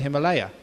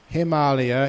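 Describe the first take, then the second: First: The word is said the common English way. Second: The word is said the native Indian way. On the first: "what we call the Himalaya" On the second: "is the proper pronunciation"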